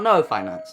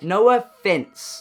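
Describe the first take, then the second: First: It sounds like the phrase 'no finance'. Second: It sounds like the phrase 'no offense'. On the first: The speaker calls it wrong. "not no finance" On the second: The speaker calls it right.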